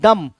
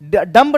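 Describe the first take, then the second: First: The final b sound is silent. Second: The final b sound is pronounced. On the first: The speaker calls it right. "D यू M बी को डम पढ़ा जाता है" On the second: The speaker calls it wrong. "डम्ब नहीं"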